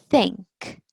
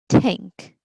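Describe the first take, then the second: First: It begins with a soft th sound. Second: It begins with a hard t sound. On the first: "the T H sound or the th sound" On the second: "the T sound"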